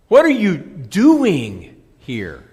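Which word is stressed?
doing. The word 'doing' carries the main stress. Asks what the person is doing there. "A question of activity"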